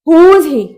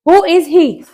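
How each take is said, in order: First: It is contracted into one short syllable. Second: It is said as two separate full words. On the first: "short form में बोलेंगे" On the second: "हु इज"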